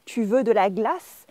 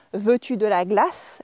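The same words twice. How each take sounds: First: "Tu veux de la glace" lifting at the end; statement order, voice going up on "glace"; rising question tune. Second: "Veux-tu" first, as a formal question; inverted question. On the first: French teacher demonstrates a spoken question, voice rising. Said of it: "the voice goes up". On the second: French teacher shows the inversion to drop, formal question. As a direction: textbook question "Veux-tu de la glace", verb leading. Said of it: "Instead of saying". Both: Shown as a demonstration.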